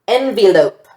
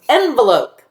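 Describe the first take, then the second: First: The middle syllable is open with a long vowel. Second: The middle syllable is closed with a short vowel. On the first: The speaker calls it wrong. "we're trying this as open" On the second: The speaker calls it right. "make this a closed syllable"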